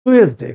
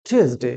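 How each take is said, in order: First: টুয়েসডে with a hard "t", "tu-es-de"; mispronounced Tuesday. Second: টুয়েসডে as the teacher's model, pitched lower; corrected Tuesday. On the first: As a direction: say টুয়েসডে loudly as spelled, "too-es-day". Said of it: "ভুল বলি". (টুয়েসডে-র ভুল উচ্চারণ, "টু-এস-ডে") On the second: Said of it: "কি হবে?". (টুয়েসডে-র সঠিক উচ্চারণ দেখানো) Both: Shown as a demonstration.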